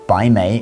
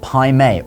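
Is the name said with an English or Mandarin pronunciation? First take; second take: Mandarin; English. First: The name is said with a Mandarin pronunciation. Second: The name is said with an anglicized pronunciation. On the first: The speaker calls it right. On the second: The speaker calls it wrong.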